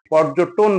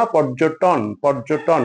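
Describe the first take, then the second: First: পর্যটন said "pɔrjoton", closed o on ট; পর্যটন with o-kar on ট; common mispronunciation. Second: পর্যটন with open aw, "pɔrjo-ṭɔn"; পর্যটন ending in "tawn"; correct pronunciation. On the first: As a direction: round ট in পর্যটন to "to". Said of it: "টকে ওকার করে". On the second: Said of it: "পর্যটন না". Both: Shown as a demonstration.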